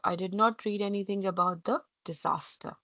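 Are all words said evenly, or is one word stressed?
evenly. All words are said evenly, without stress.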